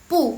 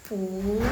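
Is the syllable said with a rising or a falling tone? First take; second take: falling; rising. First: The syllable is said with a falling tone. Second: The syllable is said with a rising tone. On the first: "punya itu tetap nada keempat" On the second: "bacanya pu, nada kedua ya guys"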